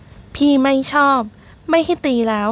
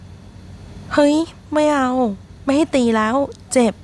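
First: Slow, higher, whiny "ไม่ให้ตีแล้ว" near tears; tearful sulk. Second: Higher, slow whiny yelp; drunken protest. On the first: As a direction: sulk it like a crying drunk. Drunk Teng sulks tearfully. (งอแงเสียงสูงใกล้ร้องไห้) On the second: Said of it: "เสียงร้องโวยวาย". (โวยวายแบบคนเมา ร้องเสียงสูง) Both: A narrator's reading.

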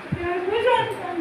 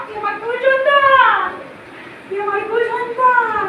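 First: Much softer, sinking final repeat of তুই আমার কুল সন্তান; quiet closing echo. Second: Put-on slow booming pronouncement to her child. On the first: Acted. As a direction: let তুই আমার কুল সন্তান fall away to a murmur. Repeats claim, dropping away. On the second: Goddess voice proclaims to devotee.

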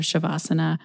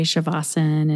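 First: Said in the usual way. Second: Shavasana without the final a; alternate pronunciation. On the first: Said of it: "pronounced in different regions of India in different ways". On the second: Shown as a demonstration. Host quoting the other way of saying it, final vowel dropped from Shavasana. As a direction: say Shavasana as "sha-VAH-sun". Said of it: "trying to say Shavasana instead of Shavasana".

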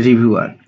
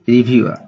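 First: রিভিউয়ার as "ri-bhyu-ar", final R sounded; wrong pronunciation demo. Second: রিভিউয়ার as "ri-bhyu-a", final R silent; correct pronunciation demo. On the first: (রিভিউয়ার-এর ভুল উচ্চারণ, শেষে র স্পষ্ট) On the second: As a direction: end রিভিউয়ার on an open "a". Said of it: "not রিভিউয়ার". (রিভিউয়ার-এর উচ্চারণ "রিভিউয়া", শেষে র নেই) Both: Shown as a demonstration.

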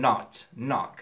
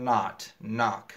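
First: "not, knock" with British rounded short o; British accent. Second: "not, knock" with American open "ah" vowel; American accent. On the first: Teacher contrasts it for students, British accent on "not, knock". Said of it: "خۆمان بە ئاکسەن بە بریتانی بێ". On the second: Teacher shows students American short o, American accent on "not, knock". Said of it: "لە ئاکسەنتی ئەمریکا بە زۆری ئۆی کورت". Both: Shown as a demonstration.

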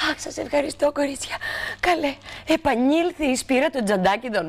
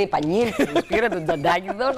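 First: A lightly voiced, higher fussy lady; grateful old lady. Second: Said in the usual way. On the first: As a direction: thank the girls like a flustered old lady. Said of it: "έρχεται τρέχοντας και λέει". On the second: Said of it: "Μόλις μας λέει".

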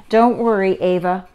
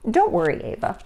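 First: Louder storybook comfort; reassuring over noise. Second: Gentle storybook comfort; soothe, softening on the name; reassuring. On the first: Mother comforts Ava in the loud park, raised-voice reassurance. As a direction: reassure firmly above a din. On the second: Mother comforts Ava about ruined hairdos, reassuring. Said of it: "her mother reassured her". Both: A narrator's reading.

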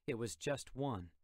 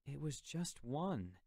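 First: Said in the usual way. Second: Pleading. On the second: Acted. Jim begging his uncle to see reason, pleading. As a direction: plead for understanding. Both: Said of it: "I pleaded".

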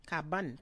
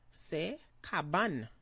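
First: "Cabane" with a clear final N sound; "Cabane" ending on an audible N; pronounce the N. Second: "c'est cabane" with the N sounded; "cabane" said slow with a final N; pronounce the N. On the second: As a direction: land on the N of "cabane", slowly. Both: Shown as a demonstration. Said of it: "pronounce the N".

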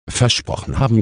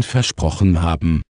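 First: Sceptical echo, lifting at the end; lightly croaked, questioning repeat; mild raven croak. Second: Said in the usual way. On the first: A narrator's reading. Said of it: "krächzte der Rabe Abraxas". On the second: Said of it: "sagte die kleine Hexe".

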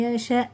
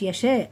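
First: "يشاء" ending in a clear glottal stop; correct ending. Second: "يشاء" as a loose "yeshe"; wrong ending. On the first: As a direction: close off "يشاء" sharply as "yasha'". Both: Shown as a demonstration. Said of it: "مش".

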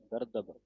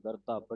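First: ਗਰਦਬ with a clear d and final b; the right way to say ਗਰਦਬ; ਗਰਦਬ ਸਹੀ ਉਚਾਰਨ; correct pronunciation. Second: The wrong way to say ਗਰਦਬ; ਗਰਦਬ ਗਲਤ ਉਚਾਰਨ; wrong pronunciation. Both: Shown as a demonstration. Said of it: "ਗਰਦਬ ਨਹੀਂ ਕਹਿਣਾ".

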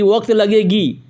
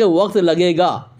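First: Slow, mocking quote of "लगेगी"; mocked wrong grammar. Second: Slow, lower correction ending on "लगेगा"; corrected grammar. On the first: Debater quoting his opponent's bad Urdu, slow mock quote. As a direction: draw out the faulty "लगेगी" ending in imitation. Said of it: "उसको उर्दू नहीं बोलना आता". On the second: Shown as a demonstration. Debater correcting his opponent's Urdu, slow correction. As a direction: state "लगेगा" slowly as the proper form. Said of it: "ये होना चाहिए".

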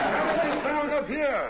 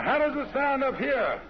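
First: Much higher voice. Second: Reach up into a higher voice. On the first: Told to go higher, hits the top of the voice. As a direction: squeeze it up as high as it goes. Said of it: "get way up there". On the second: Testing a higher character voice for the partner. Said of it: "I'll try to get a high one". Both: Shown as a demonstration.

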